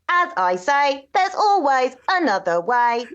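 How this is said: It is said in a mechanical robot voice. "robot catchphrase might sound a little like this"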